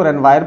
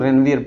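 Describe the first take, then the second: First: "रेनवायर" ending like English "wire"; alternative pronunciation. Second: "रेनवियर" ending like English "veer"; alternative pronunciation. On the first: Teacher showing students how some people read it, "रेनवायर" with a wire-like ending. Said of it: "कुछ लोग इसको रेनवायर पढ़ते हैं". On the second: Teacher showing students how others read it, "रेनवियर" with a veer-like ending. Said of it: "कुछ लोग रेनवियर पढ़ते हैं". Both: Shown as a demonstration.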